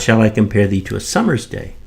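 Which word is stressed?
summer's. The stress falls on the word summer's. A summer's day, not another season, is chosen. "shall I compare thee to a summer's day or a winter's"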